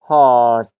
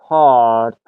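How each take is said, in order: No difference in how they are said.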